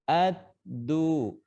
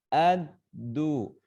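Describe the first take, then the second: Both takes have the same delivery.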